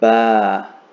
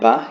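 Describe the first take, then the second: First: The vowel is long, held two counts. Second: The vowel is short, held one count. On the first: The speaker calls it right. "You'll extend for two counts" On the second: The speaker calls it wrong. "instead of saying ba"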